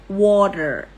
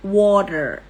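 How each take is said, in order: First: It is said in an American accent. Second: It is said in an American accent.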